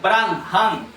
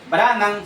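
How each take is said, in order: First: The h sound in the middle is pronounced. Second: The h sound in the middle is dropped. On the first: The speaker calls it right. "si lo pronunciamos correctamente" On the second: The speaker calls it wrong. "no estamos pronunciando la H"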